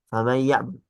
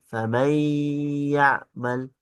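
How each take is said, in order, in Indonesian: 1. Bunyi sengau itu dibaca cepat dan dipendekkan. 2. Bunyi sengau itu ditahan selama dua ketukan. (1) "tidak di ditahan" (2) "Jadi harus ditahan"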